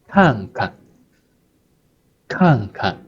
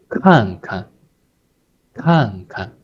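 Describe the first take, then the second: The two takes are said the same way.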